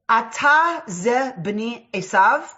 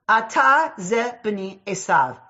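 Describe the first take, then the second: First: It is said as a rising question. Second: It is said as a falling statement.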